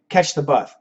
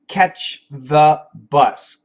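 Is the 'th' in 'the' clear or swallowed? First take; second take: swallowed; clear. First: The th sound is swallowed, said fast. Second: The th sound is clearly pronounced. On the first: "the American, if they're speaking really fast" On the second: "As an E S L student"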